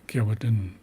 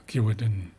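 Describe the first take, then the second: The two takes are said the same way.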